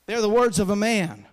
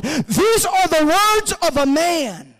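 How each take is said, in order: First: Said in the usual way. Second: Slow, high, loud proclamation; thundering, drawn-out pulpit climax; climactic preaching shout. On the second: Real, not acted. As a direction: cry it out with long drawn words. Preacher's climax, then calm restatement.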